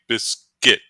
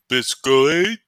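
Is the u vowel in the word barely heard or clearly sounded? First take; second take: barely heard; clearly sounded. First: The u vowel is barely heard. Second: The u vowel is clearly sounded. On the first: The speaker calls it right. "place more emphasis on the I" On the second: The speaker calls it wrong. "instead of saying"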